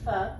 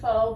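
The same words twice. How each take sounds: First: The word is said with a native-like vowel. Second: The word is said with an anglicized vowel. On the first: The speaker calls it right. "it's really pronounced" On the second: The speaker calls it wrong. "Some people mispronounce it"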